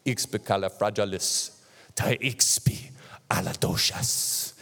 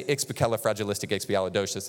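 First: Slow, dramatic African accent, half whispered. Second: Said in the usual way. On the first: Shown as a demonstration. Preacher showing how an African would say it, in a slow, dramatic African accent. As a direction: draw it out grandly in an African accent. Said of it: "when an African says it, it's like". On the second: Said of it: "I can say ... and it sounds okay".

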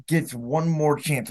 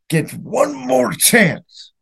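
First: Quiet what-if. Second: Higher and drawn out slowly, stretching more; anguished replay of the final drive; pained what-if. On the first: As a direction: let the question sink away softly. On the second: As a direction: lift the voice and drag every word. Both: Real, not acted. Fan repeats the what-if scenario.

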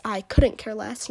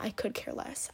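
First: "couldn't" stressed, louder and slow; correct version. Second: "could" in a quiet scornful whisper; mocking wrong version. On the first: Girl correcting Leland's wrong phrase, slow and louder on "couldn't". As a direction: slowly lean hard on "couldn't". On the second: Girl correcting Leland, softly mocking the wrong "could". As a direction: throw away the wrong "I could care less" softly. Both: Shown as a demonstration.

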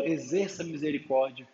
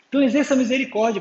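First: Quietly resigned repeat. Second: Fast, higher and louder, like an impatient chore; mock exasperated rush; grudging, annoyed. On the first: Pretend. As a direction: lower and softer, giving in. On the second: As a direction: blurt it out as if sick of hearing it. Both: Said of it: "Pô, que saco de novo".

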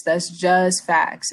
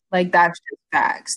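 First: That's just facts, said slowly with weight on "just"; slow emphatic repeat. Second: Said in the usual way. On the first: Real, not acted. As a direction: drag out "just" and drop the tune at the end.

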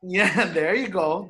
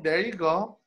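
First: Slow words with a laugh in them. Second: Said in the usual way. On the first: Real, not acted. Laughing, then repeating the phrase.

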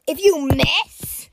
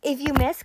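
First: Stretched-out, incredulous repeat; drawn-out shocked question; alarmed disbelief. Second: Said in the usual way. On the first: Real, not acted. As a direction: repeat it slowly, aghast.

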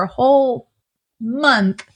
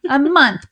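First: "month" dicho lento y caído; stress on month. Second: "A month" repetido más alto y fuerte; "month" subrayado con tono alto; stress on month. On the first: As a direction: alarga y baja "month". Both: Real, not acted.

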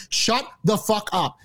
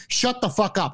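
First: Slow, word-by-word retort to the TV; slow, emphatic demand. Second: Said in the usual way. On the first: Retold or imitated. Fed-up viewer telling off the commentators on TV, slow and emphatic. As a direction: drag out each word for emphasis. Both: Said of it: "I literally said to my TV".

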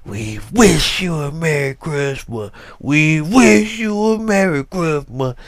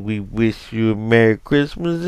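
First: Mock-angry children's voice, leaning on "wish"; angry carol. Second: Said in the usual way. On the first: Imitating the kids' church choir, barely audible but angry. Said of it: "but it was angry". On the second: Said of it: "and they singing".

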